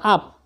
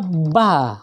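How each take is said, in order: First: The syllable begins with the vowel sound. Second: The syllable begins with the consonant sound. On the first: The speaker calls it wrong. "Jadi jangan dibaca up" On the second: The speaker calls it right. "Ini dibaca ba, karena konsonan harus dibaca terlebih dahulu baru vokal"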